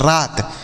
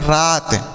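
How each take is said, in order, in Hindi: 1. स्वर को लंबा खींचा गया है। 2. स्वर को लंबा खींचा गया है।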